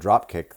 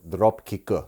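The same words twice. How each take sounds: First: It is said plainly without added vowels. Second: Extra vowel sounds are added after consonants.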